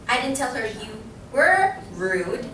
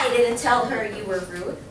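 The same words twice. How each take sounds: First: The word rude carries the stress. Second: The word didn't carries the stress. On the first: Something else was said about the person. "I'm putting emphasis on what? The word rude" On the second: The claim of having said it is flatly denied. "I didn't say that"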